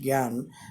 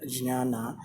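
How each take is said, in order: First: It is said the North Indian way. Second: It is said the Sanskrit way. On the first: "Indians from North, uh, called it uh, call knowledge gyan" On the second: "as uh, uh, it is uh, pronounced in Sanskrit"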